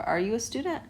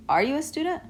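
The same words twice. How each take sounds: First: Are you a student? gentler rise on student; softer rising question. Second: Are you a student? rising high on student; rising question. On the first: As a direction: ask it again more gently. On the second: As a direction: ask it with a high rise. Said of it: "If I wanna say". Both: Shown as a demonstration.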